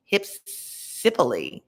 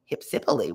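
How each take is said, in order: First: Hypsipyle said slowly, syllable by syllable, falling; careful pronunciation. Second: Hypsipyle dropped low and savoured, falling; low relish. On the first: Reader savouring a strange name, slow careful pronunciation. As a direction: sound out Hypsipyle slowly: hip-SIP-uh-lee. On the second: Reader delighting in a fun word, low relishing repeat. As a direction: roll Hypsipyle out deep with relish. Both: Shown as a demonstration. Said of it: "what a fun word".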